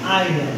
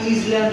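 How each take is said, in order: First: It begins with 'eye', the s silent. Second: It begins with 'is', sounding the s. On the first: The speaker calls it right. "এটা উচ্চারণ হবে আইল্যান্ড" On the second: The speaker calls it wrong. "এটা আমরা ইসল্যান্ড বলতে পারি, কিন্তু না"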